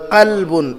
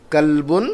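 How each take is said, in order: First: قلبن opened with the guttural Arabic q; deep qaf. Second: کلبن starting on an ordinary English-like k; plain k sound. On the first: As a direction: say قلبن from the back of the throat, the heavy qaf. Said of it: "بڑی قاف سے". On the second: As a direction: say کلبن with a plain k, not from the throat. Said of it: "چھوٹی قاف سے". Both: Shown as a demonstration.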